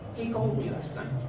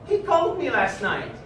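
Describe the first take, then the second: First: It sounds like a plain, neutral statement. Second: It sounds extremely happy. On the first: It simply reports a fact. "I can say it as a statement of fact" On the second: The speaker is delighted by the news. "as if I'm extremely happy with what I heard"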